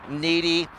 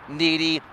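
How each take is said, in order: Both takes have the same delivery.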